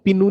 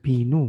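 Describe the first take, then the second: First: The first consonant is said sharp and hard. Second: The first consonant is said soft and gentle. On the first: The speaker calls it wrong. "बहुत शार्प करके आपको इसको पा नहीं बोलना" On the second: The speaker calls it right. "थोड़ा सा सॉफ्ट कर कर आपको बोलना है"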